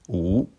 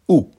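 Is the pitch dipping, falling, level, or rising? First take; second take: rising; falling. First: The pitch rises from middle to high. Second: The pitch falls sharply from high. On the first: "Deuxième ton" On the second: "Quatrième ton"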